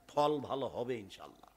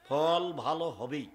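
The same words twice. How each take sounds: First: Said in the usual way. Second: হবেই said slowly with a laugh, firm; stress on হবেই. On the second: Shown as a demonstration. Preacher assuring the crowd হবেই, slow and laughing. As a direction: lean on হবেই and chuckle.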